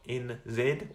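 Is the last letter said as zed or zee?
zed. The letter Z is said as zed.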